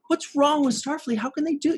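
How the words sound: It sounds confiding, like venting to a friend.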